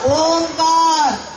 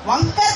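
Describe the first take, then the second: First: The name begins with an 'o' sound. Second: The name begins with a 'va' sound. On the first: The speaker calls it right. "ఓమిత ఒత్తుని ఒంగో పెట్టాలి" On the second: The speaker calls it wrong. "వంకర్ కాదు నాన్న"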